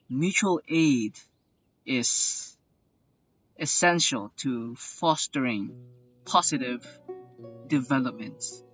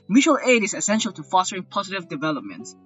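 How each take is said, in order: First: It is spoken very slowly and drawn out. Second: It is spoken at a normal, brisk pace. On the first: The speaker calls it wrong. "I will read this as Sino" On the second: The speaker calls it right. "Arlecchino just read this as"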